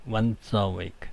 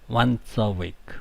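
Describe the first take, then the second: The two takes are said the same way.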